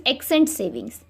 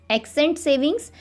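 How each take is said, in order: First: Said in the usual way. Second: "accent savings" said slowly with a rising end; slow, deliberate repeat. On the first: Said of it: "teacher repeats term". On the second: Shown as a demonstration. Teacher repeating the term to students, slowly. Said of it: "teacher repeats term slowly".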